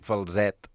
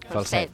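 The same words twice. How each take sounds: First: The s is voiced, like a z. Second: The s is voiceless, like an s. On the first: "s'hauria d'escriure amb zeta" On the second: "Sorda, no és sonora"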